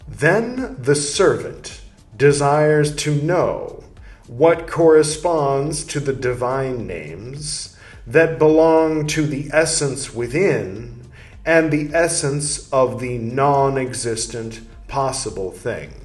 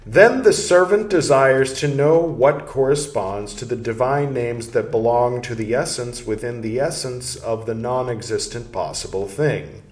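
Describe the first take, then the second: First: It is read a little slower. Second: It is read at normal speed.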